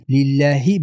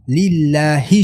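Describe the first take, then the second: First: 'لله' with short, weak hi; unclear final kasra. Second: Slow 'لله' with full, distinct hi; clear final kasra. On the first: Teacher mimics common error, final vowel weak. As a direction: let the end of 'لله' go indistinct. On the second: Teacher corrects the error, slow clear ending. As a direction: sound the final hi of 'لله' fully. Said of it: "لله شود". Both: Shown as a demonstration.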